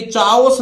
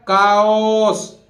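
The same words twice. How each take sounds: First: चाओस with a "ch" sound as in chair; wrong pronunciation. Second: काओस opening on k, very slowly stretched; long drawn-out "kaa-os", h silent; correct pronunciation. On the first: Teacher showing how not to say चाओस, ch sounded. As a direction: mistaken "chaos" opening on च. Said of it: "चाओस नहीं है". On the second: Teacher answering how it is said, काओस with k sound. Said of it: "तो कैसे बोलेगा?". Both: Shown as a demonstration.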